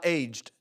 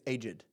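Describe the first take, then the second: First: The word is said as one syllable. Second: The word is said as two syllables. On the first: "It's not aged debts" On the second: "they pronounce it as two syllables"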